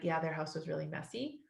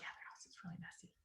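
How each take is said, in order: First: It is said in a normal voice. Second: It is said in a whisper.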